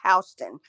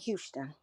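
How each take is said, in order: First: The first syllable sounds like 'house'. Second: The first syllable does not sound like 'house'. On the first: It names the county in Georgia. The speaker calls it right. "it's Houston" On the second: It names the city in Texas. The speaker calls it wrong. "and not Houston"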